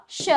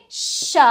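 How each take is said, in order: First: श with a shorter sh; quick श. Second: श with a long, pushed sh; forceful श. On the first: Teacher reviewing the quick श, short sound. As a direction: keep the syllable श brief. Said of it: "और इसको जल्दी". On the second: Teacher reviewing the forceful श, long sh. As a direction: stretch the hiss at the start of श. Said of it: "इसको थोड़ा जोर दे के बोलना है". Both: Shown as a demonstration.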